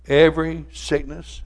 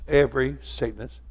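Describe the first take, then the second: First: Every stressed, slow, higher and louder with a rise on sickness. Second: Said in the usual way. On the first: Shown as a demonstration. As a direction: lean hard on Every sickness and draw it out.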